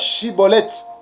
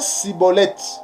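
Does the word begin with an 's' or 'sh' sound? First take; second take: sh; s. First: The word begins with a 'sh' sound. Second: The word begins with an 's' sound. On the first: The speaker belongs to the group. The speaker calls it right. "ils avaient des difficultés pour prononcer eh, le mot Chibolette" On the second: The speaker is an outsider to the group. The speaker calls it wrong. "Et ils prononçaient Cibolette"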